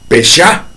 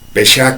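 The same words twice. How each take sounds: First: The stress is on the second syllable. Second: The stress is on the first syllable. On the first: Separating oneself from just authority. "con acento en la A" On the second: A fault, an offense, or wanting to deceive. "con acento en la E"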